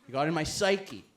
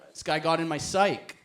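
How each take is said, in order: First: "psyche" said as "sigh-kee"; two-syllable psyche. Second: "psyche" said as "sike"; one-syllable psyche. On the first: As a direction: end "psyche" on a clear ee. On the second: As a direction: say "psyche" without the final ee. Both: Acted. Word said two ways.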